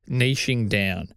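Niching is pronounced the Australian way. "I'm going to stick with niching or niche because it's how I've always said it and I'm Australian"

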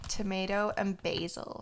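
It is said in an American accent.

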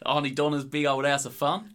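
It is said in a put-on Australian accent.

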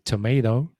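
It is said with an American pronunciation. "Americans say tomato"

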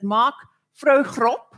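The name is said with a South African pronunciation. "which is how we would say it in South Africa"

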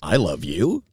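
It sounds incredulous, as if disgusted.

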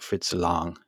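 The name has a German pronunciation. "Germans say more like Fritz Lang"

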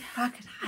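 The word is whispered quietly.

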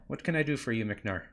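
It is said in a dwarf character voice.

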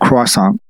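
The word has an American English pronunciation. The speaker avoids sounding pretentious. "I don't want to sound like a douchebag, so could you have a croissant?"

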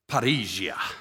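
It is said with a slight Greek accent. "I wanted to say it with a little bit of a Greek accent"

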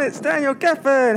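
It sounds cheerful with a put-on smile.

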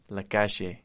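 It is said with an Argentine Spanish accent.

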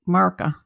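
The word is said in a clipped Southern accent.

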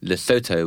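The name is said with an American pronunciation. "which I believe is the American pronunciation"

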